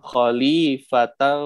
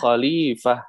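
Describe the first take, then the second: First: The word ends with -tan. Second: The word ends with an h sound. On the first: The reader continues into the next word. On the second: The reader stops on this word.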